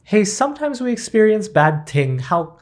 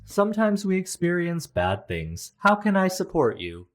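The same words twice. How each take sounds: First: Louder, higher fumbling delivery; awkward stuttering try. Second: Flat robot therapist voice. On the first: Pretend. Trying to comfort someone and fumbling, awkward and high. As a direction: botch the line like a nervous friend. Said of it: "I would definitely stutter and embarrass myself". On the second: Shown as a demonstration. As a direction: read it like a scripted AI therapist. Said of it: "this is what an A I generated therapist would say".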